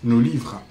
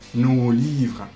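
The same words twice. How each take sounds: First: The first vowel is short and clipped. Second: The first vowel is long, like the pronoun. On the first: The speaker calls it right. "toute courte la prononciation" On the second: The speaker calls it wrong.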